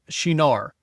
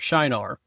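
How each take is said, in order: First: The name is pronounced in a non-English way. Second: The name is pronounced in the English way.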